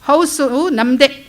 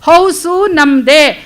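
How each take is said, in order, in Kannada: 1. ಇದನ್ನು ಸಾಮಾನ್ಯ ಸ್ವರದಲ್ಲಿ ಹೇಳ್ತಾರೆ. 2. ಇದನ್ನು ಜೋರಾಗಿ ಮತ್ತು ಗಟ್ಟಿಯಾಗಿ ಹೇಳ್ತಾರೆ.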